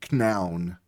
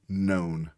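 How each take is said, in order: First: KNOWN with the K sounded and "ow" as in "cow"; said as spelt. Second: Said in the usual way. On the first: Shown as a demonstration. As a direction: say KNOWN as "k-noun". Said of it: "It should say known". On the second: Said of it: "the K is silent".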